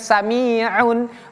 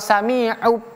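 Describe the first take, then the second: First: The word ends with an n sound. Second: The word ends with a b sound. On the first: "bukan sami'un" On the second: "atau sami'ub"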